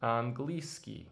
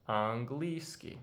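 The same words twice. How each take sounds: First: Английский said slowly and clearly, an-GLI-skiy; slow model word. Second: Английский repeated slowly with a questioning rise at the end. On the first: Teacher modelling английский slowly for students. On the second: Teacher repeating Английский slowly for students. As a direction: echo Английский slowly, ending up. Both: Shown as a demonstration. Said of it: "The word for English is".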